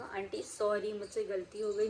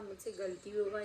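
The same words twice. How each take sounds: First: Softly begging forgiveness; pleading apology. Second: "मुझसे गलती हो गई" said quieter, begging; softer pleading. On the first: Schoolgirl to the angry mother, softly pleading. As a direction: plead with the aunt, voice dropping. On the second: Schoolgirl to the angry mother, fading softer plea. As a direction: let the repeat sink softer, almost giving up. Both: Retold or imitated. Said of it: "इतना गिड़गिड़ा रही थी".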